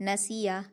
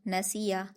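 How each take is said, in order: The two takes are said the same way.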